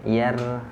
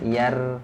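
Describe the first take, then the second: The two takes are said the same way.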